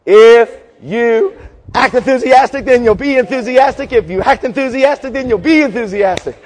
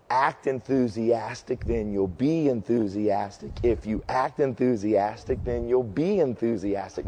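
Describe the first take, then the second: First: Chanted, belt the cheer to wake the crowd up; chanted, full-force cheer, higher and louder; enthusiastic shouted chant. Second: Slow, steady walkthrough of the cheer, at x0.6; slow demo of the cheer. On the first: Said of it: "You gotta get in it and act enthusiastic". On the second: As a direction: spell the chant out slowly for them. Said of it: "I'm just gonna walk through this". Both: Shown as a demonstration.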